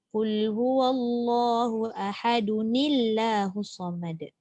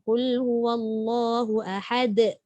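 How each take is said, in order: First: Ahad links into the next word with an added nun. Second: It stops on ahad with a silent final consonant. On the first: "Tapi bila sambung, rupa-rupanya dia kena baca" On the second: "Kalau berhenti semua tahu kan?"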